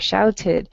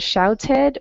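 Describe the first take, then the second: First: The ending is said with an 'id' vowel. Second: The ending is said with an 'ed' vowel. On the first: "somewhere in between ed and id" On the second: "somewhere in between ed and id"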